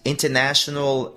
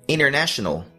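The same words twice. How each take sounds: First: The T after the N is clearly pronounced. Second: The T after the N is dropped. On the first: This is the British pronunciation. "esse T é bem perceptível" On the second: This is the American pronunciation. "o T, que simplesmente desaparece"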